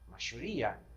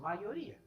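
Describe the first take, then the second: First: The middle consonant sounds like English 'sh'. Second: The middle consonant sounds like English 'y'. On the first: "o argentino diria machoria" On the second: "É simplesmente isso"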